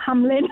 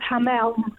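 First: The name ends with a 'lin' sound. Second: The name ends with a short 'el' sound. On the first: The speaker calls it wrong. "not Hamlin" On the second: The speaker calls it right. "it's pronounced Hamel"

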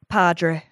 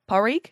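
First: The name is said with a D sound. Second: The name is said without a D sound. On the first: The speaker calls it wrong. "No, okay" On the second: The speaker calls it right. "So you just don't pronounce the D at all"

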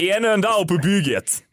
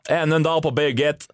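First: It is said in a Scanian Swedish accent. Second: It is said in a standard Swedish accent. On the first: The speaker calls it right. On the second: The speaker calls it wrong.

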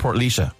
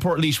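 First: The name has the Irish genitive pronunciation. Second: The name has the usual English pronunciation. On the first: The speaker calls it right. "when we should be saying Portlaoise" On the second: The speaker calls it wrong. "we all say Portlaoise"

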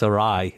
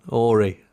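First: It sounds like two words, "a rye". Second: It sounds like one word, "orry". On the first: The speaker calls it right. "It's a rye" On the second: The speaker calls it wrong. "I went, Ori. I was like, that's not right"

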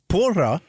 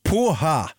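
First: The middle consonant is a rolled r sound. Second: The middle consonant is a breathy h sound. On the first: The speaker calls it wrong. "som man uttalar fel" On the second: The speaker calls it right. "Porra uttalas poha"

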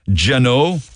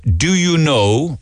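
First: It is squeezed into two syllables like 'jeno'. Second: It is said as three separate full words. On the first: This is how people in Cork say it. "we say Geno, as in J-A-N-O" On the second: This is the standard way of saying it. "Instead of do you know"

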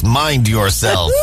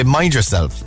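First: Spoken in a big, deep American accent. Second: Spoken in a gentle Irish accent. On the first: It sounds vaguely threatening. The speaker calls it wrong. "because he's American ... he's got the big voice" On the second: It means take care of yourself, with concern. The speaker calls it right. "in Ireland, we don't say mind yourself. We say mind yourself"

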